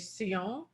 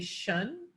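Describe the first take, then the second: First: The ending sounds like French sion. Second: The ending sounds like English shun. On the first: "the French say sion" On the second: "We say shun"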